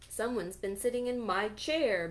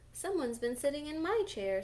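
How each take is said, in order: First: The voice is big, deep and loud. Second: The voice is medium in size and pitch. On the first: "bellowed Papa Bear in his great big voice" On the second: "in her middle-sized voice"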